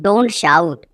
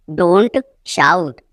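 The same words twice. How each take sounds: First: Said in the usual way. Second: Teacher separating "Don't" from "shout"; broken-up repeat. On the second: Shown as a demonstration. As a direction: pause after "Don't".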